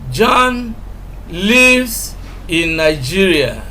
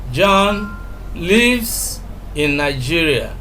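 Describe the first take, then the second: First: The word lives carries the strongest stress. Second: The word lives carries the strongest stress.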